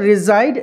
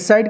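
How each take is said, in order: First: The middle consonant is a z sound. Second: The middle consonant is an s sound. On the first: The speaker calls it right. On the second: The speaker calls it wrong. "అందరూ రిసైడ్ అంటారండి, రిసైడ్ కాదు"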